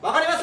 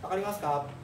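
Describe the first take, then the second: First: It is said in a strong, loud voice. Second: It is said in a soft, gentle voice.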